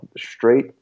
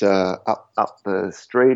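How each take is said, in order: First: The 'st' starts with an sh sound. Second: The 'st' starts with a plain s sound.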